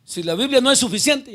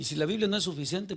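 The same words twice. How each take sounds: First: Si la Biblia no es suficiente with es pushed loud and high; emphatic repeat. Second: Said in the usual way. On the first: Shown as a demonstration. Preacher repeating the line to the congregation, much louder. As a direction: hammer the word es, rising. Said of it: "repeats phrase louder for emphasis". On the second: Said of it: "first plain take".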